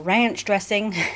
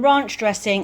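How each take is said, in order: First: It is said in an American accent. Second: It is said in a non-American accent.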